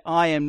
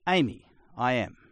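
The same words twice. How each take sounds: First: Said in the usual way. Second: "Amy, I am." said plainly with Greek eimi as Amy; Greek ami pronunciation. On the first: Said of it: "the way that you say". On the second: Shown as a demonstration. Teaching the usual Greek for I am, plain pronunciation. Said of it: "normally is".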